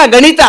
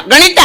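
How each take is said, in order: First: Said in the usual way. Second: Higher puppet voice; puppet echo. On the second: Acted. Puppet repeats the maths word to host, high puppet voice. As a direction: parrot it back as a puppet.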